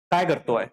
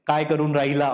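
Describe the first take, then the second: First: Lightly voiced Pune Marathi phrasing, "काय करतो है?"; a hint of Pune standard Marathi, "करतो" said short. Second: Lightly voiced Nagpuri Marathi phrasing, "काय करून राहिला?"; a touch of Nagpuri Marathi, "राहिला" said in full. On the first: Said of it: "अगर मैं पुणे में जा रहा हूं तो वैसे नहीं बोलेंगे वो". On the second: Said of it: "हमारे यहाँ पे बोला जाता है ना". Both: Shown as a demonstration.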